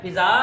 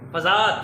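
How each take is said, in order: First: फ़िज़ा with a short i, "fi-za"; mispronunciation demo. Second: फ़ज़ा with a short a, "fa-za"; correct pronunciation. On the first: Teacher contrasting for pupils, mispronunciation demo. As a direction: say फ़िज़ा starting "fi-". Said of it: "गलत है". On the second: Teacher contrasting for pupils, correct pronunciation. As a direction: say फ़ज़ा starting "fa-". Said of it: "फ़ज़ा दुरुस्त है". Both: Shown as a demonstration.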